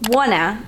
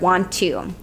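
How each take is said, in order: First: It is said as one reduced word. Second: It is said as two full words. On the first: "Wanna instead of want to" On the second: "instead of"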